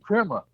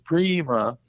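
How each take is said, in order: First: The name is given a local New Orleans pronunciation. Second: The name is given its standard Italian pronunciation. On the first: This is how the name's owner said it himself. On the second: This is how the name is said in Italian.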